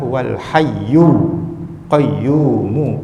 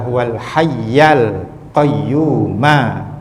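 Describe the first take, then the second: First: The words end with a u vowel. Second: The words end with an a vowel. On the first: The words are the predicate of an omitted 'He'. "al-hayyu mu bagi depan" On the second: The words attach grammatically to the name of God. "kenapa dibaca al-hayya"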